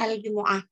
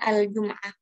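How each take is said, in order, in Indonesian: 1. Huruf m diikuti vokal u. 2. Huruf m tidak diikuti vokal. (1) "membacanya dengan mendomah mimnya" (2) "dibaca dengan mensukun huruf mimnya"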